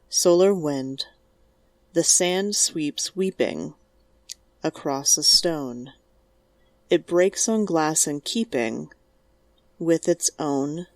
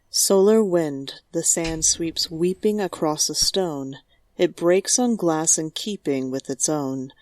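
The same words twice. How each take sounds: First: It pauses at each short line break. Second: It flows with pauses only at sentence breaks.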